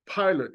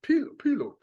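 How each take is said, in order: First: "pilot" said as PIE-lut, English long I; the usual English "pilot", long I sound; English pronunciation. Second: "pilot" said as PEE-lot, I as an E; "Pil-, pilot" with the I sounding like EE; pilote with E sound. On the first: Teacher showing the English "pilot" with a long I. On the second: Teacher showing the old way to say "pilot", PEE-lot. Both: Shown as a demonstration. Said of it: "It would be pilote".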